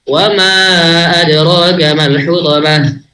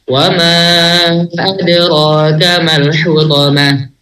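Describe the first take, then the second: First: It is recited at a fast tempo. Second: It is recited at a medium tempo. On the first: "Apalagi yang hadar lebih cepat lagi" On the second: "Kalau tadwir lebih cepat dia"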